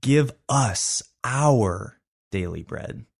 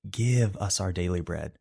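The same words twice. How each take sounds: First: "us" and "our" stretched and leaned on, slow; stress on us and our. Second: "Give" punched and falling, the rest lighter; stress on Give. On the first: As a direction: press on "us our" very slowly. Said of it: "push the emphasis to the next couple words". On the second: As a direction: lean on the word "Give" first. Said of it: "When the emphasis goes on the word give". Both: Shown as a demonstration.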